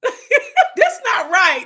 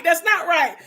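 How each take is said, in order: First: Laughing. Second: Said in the usual way. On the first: Real, not acted. Laughing then repeating herself.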